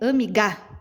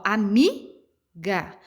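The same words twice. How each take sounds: First: The stress is on the last syllable. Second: The stress is on the middle syllable. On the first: The speaker calls it wrong. "Se eu fosse colocar a sílaba tônica no Gá, ficaria amiga" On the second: The speaker calls it right. "automaticamente o mi é a, a sílaba tônica mais forte"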